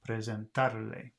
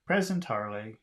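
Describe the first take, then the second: First: Only the syllable tar carries stress. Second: Several syllables carry stress. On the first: "They've got the accent over the ta" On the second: "if you're saying it like an English speaker"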